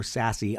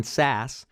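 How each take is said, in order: First: Sassy with two syllables, ending in ee; alternative pronunciation. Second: Sass as one syllable, rhyming with pass; unsure pronunciation. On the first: Host offers another guess, Sassy ending in ee. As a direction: add an ee ending to make Sassy. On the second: Host names the senator, Sass as one syllable. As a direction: say Sass with no final vowel. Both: Shown as a demonstration. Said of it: "not sure how to pronounce it".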